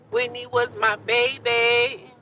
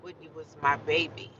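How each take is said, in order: First: Loud, high, drawn-out declaration; raised voice, lingering on every word; emphatic cry. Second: Said in the usual way. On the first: Real, not acted. Repeats it loudly, drawn out.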